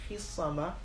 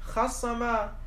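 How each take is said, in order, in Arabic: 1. الحرف الجذري الأول يحمل الحركة 'i'. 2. الحرف الجذري الأول يحمل الحركة 'a'. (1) "وكسر الصاد وكسر الفاء" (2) "وفتح الفاء بناء على نقل حركة الصاد إليها"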